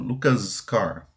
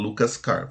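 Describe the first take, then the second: First: The name ends with a z sound. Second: The name ends with an s sound. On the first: The speaker calls it right. "falo Lucas car" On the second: The speaker calls it wrong. "Não posso falar Lucas car"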